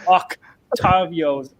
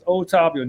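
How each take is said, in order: First: A k sound comes before the t. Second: No k sound comes before the t. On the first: The speaker calls it wrong. "you get called Octavios" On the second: The speaker calls it right. "It's Otavio, no C"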